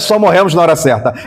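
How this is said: It is said as a statement.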